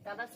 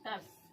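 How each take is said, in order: First: An extra vowel separates the t and r sounds. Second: The t and r sounds run together without vowel. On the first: The speaker calls it wrong. "तरस नहीं पढ़िएगा" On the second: The speaker calls it right.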